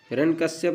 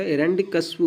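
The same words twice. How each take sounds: First: हिरण्यकश्यप ending in -kashyap, closed on p; mispronunciation shown. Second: हिरण्यकश्यपु ending in a clear -pu; correct form shown. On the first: Teacher showing learners the rejected form, हिरण्यकश्यप ending in -yap. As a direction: say हिरण्यकश्यप with no vowel after the last p. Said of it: "नहीं होता". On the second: Teacher giving learners the accepted form, हिरण्यकश्यपु ending in -pu. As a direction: say हिरण्यकश्यपु with u after the last p. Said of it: "होता है". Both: Shown as a demonstration.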